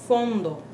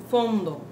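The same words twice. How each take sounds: Both takes have the same delivery.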